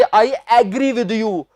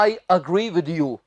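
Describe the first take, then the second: First: Slow, "agree" said AE-gree; wrong pronunciation. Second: Slow, low "agree" as uh-GREE; correct pronunciation. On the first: Teacher showing what not to say, mispronounced. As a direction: show the mistake, "agree" opening on a full "ae". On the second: Teacher translating for students, slow and carefully pronounced. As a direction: model the sentence with "agree" opening on a short uh. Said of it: "ना कि". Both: Shown as a demonstration.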